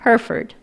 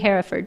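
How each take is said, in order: First: It has no extra vowel sound in the middle. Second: It has an extra vowel sound in the middle. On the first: The speaker calls it right. "That's what it is" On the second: The speaker calls it wrong. "Phonetically, it seems like it should be Hereford, but it is not"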